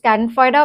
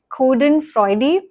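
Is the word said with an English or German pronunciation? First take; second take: English; German. First: It is said with an English pronunciation. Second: It is said with a German pronunciation. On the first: "I am going to call it" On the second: "Germans call it"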